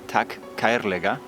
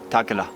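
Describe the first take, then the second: First: The phrase is said in full, carefully. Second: The phrase is run together with sounds dropped. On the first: This is the form taught in school. "For saying thank you dearly" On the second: This is how people say it in the street. "I can only hear takela"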